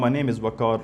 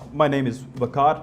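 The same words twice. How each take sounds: First: The pitch stays flat without changing. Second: The pitch moves up and down. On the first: The speaker calls it wrong. "This is called monotone, speaking in the same tone without changing the pitch" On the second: The speaker calls it right. "how you can beat this?"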